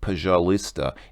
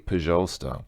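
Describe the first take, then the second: First: The middle vowel sound is fully pronounced. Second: The middle vowel sound is dropped entirely. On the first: The speaker calls it wrong. "I'm quite sure that you don't say păjalista" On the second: The speaker calls it right. "Russians don't usually pronounce that. They usually say păjalsta"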